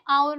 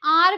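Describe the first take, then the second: First: "आवर" with a silent H, OW-er; low-pitched "आवर", starting straight on the vowel; correct pronunciation. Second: "आर" as one long syllable, AAR; "आर" with no W glide, like the letter R; wrong pronunciation. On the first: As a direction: model hour as a gliding "आवर". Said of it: "तो हम इसे क्या बोलते हैं". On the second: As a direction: say hour wrongly as a plain "आर". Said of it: "गलत है". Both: Shown as a demonstration.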